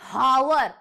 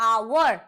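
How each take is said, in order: First: The word starts with an h sound. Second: The word starts with a vowel, no h. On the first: The speaker calls it wrong. "ना कि हावर" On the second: The speaker calls it right. "जब हम इसका उच्चारण करते हैं तो वो होता है आवर"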